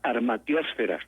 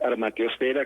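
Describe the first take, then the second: First: The stress falls on the syllable before 'fe'. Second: The stress falls on the 'fe' syllable. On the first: The speaker calls it wrong. "Lo pronuncian armatiosfera, como atmósfera" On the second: The speaker calls it right. "la prosodia correcta es armatiosfera, como es hidrosfera"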